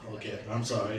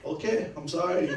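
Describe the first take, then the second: First: Said in the usual way. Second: High, loud "Okay, I'm sorry" through a laugh; laughing through a mock apology. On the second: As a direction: apologize while cracking up. Apology again, now laughing.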